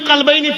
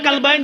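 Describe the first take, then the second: First: The word begins with a deep throat q sound. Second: The word begins with a plain k sound. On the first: Two hearts. The speaker calls it right. "खुदा ने दिल के हवाले से बात की" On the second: Two dogs. The speaker calls it wrong. "मगर तुमने कल्बैन पढ़ा"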